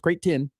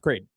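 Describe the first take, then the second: First: The T sound in the middle is pronounced. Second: The T sound in the middle is dropped. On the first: The speaker calls it right. "So it's Creighton" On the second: The speaker calls it wrong. "sometimes I forget to, and it sounds Creighton. People get mad at me"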